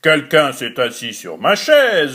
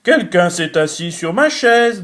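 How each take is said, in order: First: It is said in a big, deep voice. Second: It is said in a medium voice.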